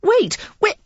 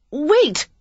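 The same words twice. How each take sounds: First: Loud, high, urgent calls; crying out. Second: A loud, high call; crying out. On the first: Lily hurries after the earl calling loudly. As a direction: shout after him, desperate to stop him. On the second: Lily calls after the departing earl, loud and high. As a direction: call after him before he escapes. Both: A narrator's reading. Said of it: "she cried".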